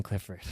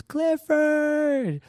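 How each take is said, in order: First: Much softer, lower name; not yelling. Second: Put-on very high, drawn-out kid's squeal; joyful scream. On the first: Retold or imitated. Storyteller not yelling like the kid, quiet delivery. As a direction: say it small and quiet, no yell. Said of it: "And I'm not yelling". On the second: Excited kid seeing the mascot, high scream. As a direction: imitate a child shrieking with joy, pitched way up. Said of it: "he just screams".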